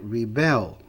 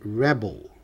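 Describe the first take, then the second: First: The stress is on the second syllable. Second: The stress is on the first syllable. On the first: It is the verb, to rebel. "Se rebelar é rebel" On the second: It is the noun, a rebel. "O rebelde é rebel"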